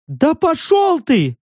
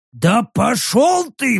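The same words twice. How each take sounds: First: High creature snarl. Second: Slow grumbled retort. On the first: Repeated retort. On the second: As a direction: mutter it back. Rek's retort. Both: A narrator's reading.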